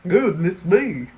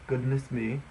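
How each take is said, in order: First: It is spoken in a Southern American accent. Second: It is spoken in a general American accent. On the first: "A Southern person, ... That was bad"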